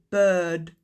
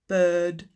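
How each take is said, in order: No difference in how they are said.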